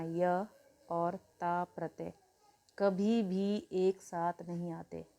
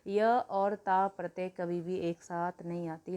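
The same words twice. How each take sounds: First: Slow, word by word, for students to write down; each word of "य और ता प्रत्यय कभी भी एक साथ नहीं आते" spaced out slowly; slow dictation. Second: Said in the usual way. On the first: Shown as a demonstration. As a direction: dictate the rule slowly so they can note it. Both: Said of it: "note बना के लिख लेना".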